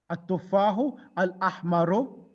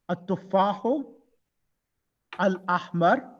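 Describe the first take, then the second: First: The last word ends with a short vowel. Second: The last word ends without a final vowel.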